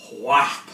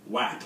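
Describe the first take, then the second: First: Louder "wap" for others to repeat; "wap" loud and clear, one syllable; wap as one word. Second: "wap" spoken as a single quick word; wap as one word. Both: Shown as a demonstration. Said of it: "Say it with me".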